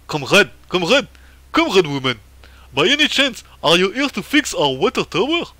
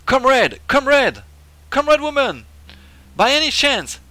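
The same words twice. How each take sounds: First: Loud, hammed-up Russian accent; badly faked Russian accent, pitch swooping up. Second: High, loud comic comrade; game character voice. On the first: Official asks comrade woman to fix the water tower, Russian accent. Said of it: "c'est plutôt un accent russe que je devrais prendre". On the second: Acted. Player voices an old official greeting a comrade, hammed-up high voice. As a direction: call out high and loud with big falling swoops.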